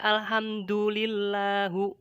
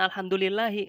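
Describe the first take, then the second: First: The word ends with the syllable hu. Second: The word ends with the syllable hi. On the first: "hi-nya diganti sama hu" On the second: "bukan alhamdulillahi"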